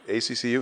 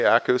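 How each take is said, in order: First: Each letter is said separately. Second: It is said as a single word. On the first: "some people spell it out" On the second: "some people say ACCU"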